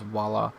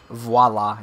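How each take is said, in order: First: The word starts with a W-like sound. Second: The word starts with a clear V sound. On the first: The speaker calls it wrong. "It's not just voila" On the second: The speaker calls it right. "It's actually got a V"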